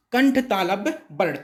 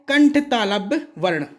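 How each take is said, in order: Both takes have the same delivery.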